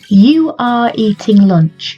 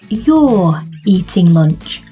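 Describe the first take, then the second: First: You and are are said as two separate words. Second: You and are are joined into one syllable.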